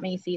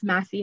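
First: The first syllable sounds like 'mace'. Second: The first syllable sounds like 'mass'. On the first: The speaker calls it wrong. "not Macy" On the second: The speaker calls it right. "it's Massey Hall"

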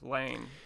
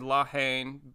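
First: The vowel after the L is dropped. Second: The vowel after the L is kept. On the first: "drop the vowel after the L and just say Lane" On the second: "I would say La Haine, but because it's not there's no apostrophe"

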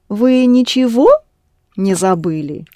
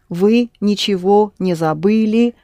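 First: The pitch rises on one syllable, as a question. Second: It is said as a plain statement.

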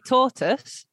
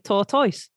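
First: It is said with a Southern English accent. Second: It is said with a Northern English accent.

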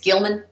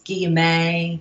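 First: The name is said in an Australian accent. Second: The name is said in a French accent.

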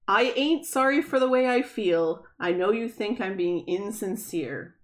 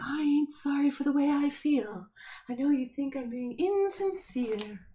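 First: It is said in a normal voice. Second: It is said in a magical unicorn voice.

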